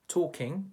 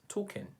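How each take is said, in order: First: The word ends with an 'ng' sound. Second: The word ends with an 'n' sound.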